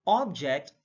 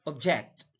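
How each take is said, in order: First: OBject, first syllable stressed; careful demo of OBject. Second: ObJECT, second syllable stressed; careful demo of obJECT. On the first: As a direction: hit the OB in "object". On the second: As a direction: hit the JECT in "object". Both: Shown as a demonstration. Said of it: "It depends on the sound".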